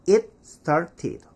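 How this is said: Every sound is pronounced fully and separately. This is how Korean learners say it. The speaker calls it wrong. "우리는"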